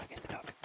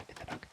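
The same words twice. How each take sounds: The two takes are said the same way.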